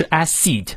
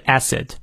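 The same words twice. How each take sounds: First: "acid" misread as "ass-SEED"; mispronounced "acid" with a raised, long second syllable; wrong long vowel. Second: "acid" said as "ASS-id"; correct short vowels. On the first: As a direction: stretch the end of "acid" into a long ee. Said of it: "不是acid". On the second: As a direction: open short a in "acid", short unstressed ending. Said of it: "而是acid". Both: Shown as a demonstration.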